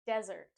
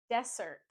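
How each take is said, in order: First: Desert as "DEZ-urt"; z sound. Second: Dessert as "DESS-urt", s for z; wrong s sound. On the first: Teacher giving the right desert, DEZ-urt. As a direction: buzz the z, stress the start of Desert. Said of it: "drop the S sound and add a Z sound". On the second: Teacher showing the wrong desert, DESS-urt. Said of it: "we don't say". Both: Shown as a demonstration.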